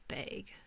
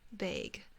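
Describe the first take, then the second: No difference in how they are said.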